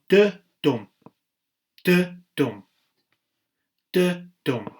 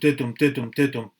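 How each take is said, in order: First: Each beat pair is separated by a short pause. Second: The beat pairs run together with no pause. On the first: The speaker calls it right. "There is a break between it" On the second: The speaker calls it wrong. "It won't go"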